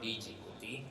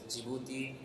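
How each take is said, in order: First: It starts with a separate 'dee' sound first. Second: It starts directly with a soft 'j' sound. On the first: The speaker calls it wrong. "and not D Djibouti" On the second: The speaker calls it right. "the pronunciation is Djibouti"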